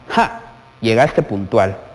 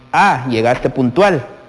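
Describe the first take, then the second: First: It is said in a mocking, ironic tone. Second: It is said in a sincere, plain tone.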